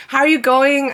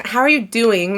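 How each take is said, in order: First: "going" said instead of "doing"; "How are you going?" with going in place of doing; wrong word going. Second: Said in the usual way. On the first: Shown as a demonstration. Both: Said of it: "Not how are you going".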